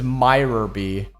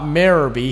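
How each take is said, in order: First: The first syllable sounds like 'my'. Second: The first syllable sounds like 'meer'. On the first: The speaker calls it right. "the correct pronunciation is Myrorby" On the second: The speaker calls it wrong. "Not Mirrorby"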